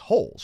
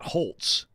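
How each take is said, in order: First: The name is said without a T sound. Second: The name is said with a T sound. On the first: The speaker calls it right. "I think it's holes, right?" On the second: The speaker calls it wrong. "Not Holtz. You don't say the T"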